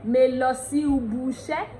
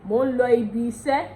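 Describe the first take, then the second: First: "ubu" as oo-boo; Ondo pronunciation. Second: "ibi" as ee-bee, "iṣẹ́" as ee-sheh; Yoruba pronunciation. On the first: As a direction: turn the vowels of "ubu" to oo. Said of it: "Ondo will be like". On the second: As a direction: keep i sounds in "ibi iṣẹ́". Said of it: "Yoruba will be like". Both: Shown as a demonstration.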